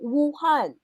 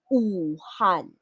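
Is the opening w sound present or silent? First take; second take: present; silent. First: It starts with a clear w sound. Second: It starts with a plain u vowel. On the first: The speaker calls it wrong. "That is wrong" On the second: The speaker calls it right. "The correct pronunciation"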